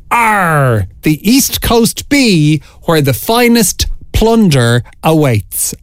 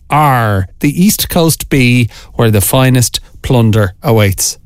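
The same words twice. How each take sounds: First: Slow, higher-pitched pirate voice. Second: Said in the usual way. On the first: Shown as a demonstration. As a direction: play the pirate, stretching every word. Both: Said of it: "in your best pirate voice".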